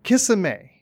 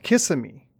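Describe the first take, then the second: First: Kissimmee pitched high and loud, ending in "may"; wife's rival pronunciation. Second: Kissimmee stressed on the first syllable, ending in "mee"; husband's pronunciation. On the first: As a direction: insist on "Kissimmee" as KISS-uh-may. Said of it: "It's pronounced". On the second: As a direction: say "Kissimmee" as KISS-uh-mee, in an even voice. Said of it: "the husband was telling the wife". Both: Retold or imitated.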